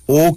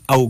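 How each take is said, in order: First: "او" as a straight single oh; wrong o vowel. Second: "او" as a-oo, two vowels joined; correct au glide. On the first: Teacher ruling out a sound, plain oh. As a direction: say "او" without any glide. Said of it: "کی آواز نہیں آئے گی". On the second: Teacher giving the right sound, au glide. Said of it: "کی آواز آئے گی". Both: Shown as a demonstration.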